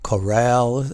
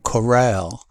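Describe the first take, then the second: First: The stress is on the second syllable. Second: The same.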